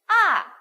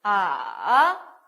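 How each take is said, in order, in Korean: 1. 음높이가 높은 데서 낮은 데로 확 떨어집니다. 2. 음높이가 내려갔다가 다시 올라갑니다. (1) "위에서부터 밑까지" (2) "이렇게 내려갔다가 이렇게 올라옵니다"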